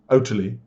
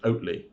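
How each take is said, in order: First: The T sound is clearly pronounced. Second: The T sound is dropped or barely heard. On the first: "Should we be pronouncing the T so it sounds like totally?" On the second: "Or is it just Oatly?"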